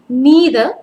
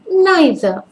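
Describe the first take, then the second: First: It is said with an American pronunciation. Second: It is said with a British pronunciation. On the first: "that's the American pronunciation" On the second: "I prefer the British one"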